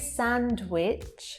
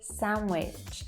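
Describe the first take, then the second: First: A D sound is heard. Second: No D sound is heard. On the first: The speaker calls it wrong. "We don't say sandwich" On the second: The speaker calls it right. "that D as well disappears altogether"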